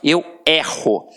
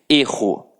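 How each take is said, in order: First: The first vowel is an open e sound. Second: The first vowel is a closed e sound. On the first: It is the verb meaning I make mistakes. "Observa que este e tem um som aberto" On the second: It is the noun meaning a mistake. "Para que a gente marque muito bem a diferença da pronúncia"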